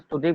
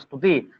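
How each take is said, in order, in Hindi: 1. यह सीधे स् के संयुक्त व्यंजन से शुरू होता है। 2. स से पहले एक स्वर जोड़ा गया है।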